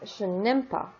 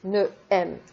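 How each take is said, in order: First: The n sound joins directly onto aime. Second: Ne is said as a separate syllable before aime. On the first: The speaker calls it right. "il s'agit de marquer l'élision ici" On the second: The speaker calls it wrong. "afin d'éviter le ne aime"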